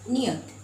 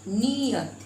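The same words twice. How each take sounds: First: The first vowel is short and not drawn out. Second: The first vowel is long and drawn out. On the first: It means fixed or certain. "न में छोटी" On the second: It means intention or feeling. "यहाँ पर हम खींच कर बोल रहे हैं"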